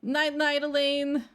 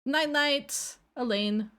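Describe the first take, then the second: First: Sing-song goodnight, pitched up; cutesy higher voice. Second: Said in the usual way. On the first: Shown as a demonstration. VTuber redoing her old cute sign-off, higher and sweeter.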